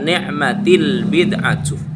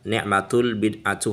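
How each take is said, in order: First: The vowel after ni'mat is i. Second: The vowel after ni'mat is u. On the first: The speaker calls it right. "Yang benar itu adalah dibaca ni'matil bid'atu" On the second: The speaker calls it wrong. "Letaknya dibaca dhammah. Ini salah"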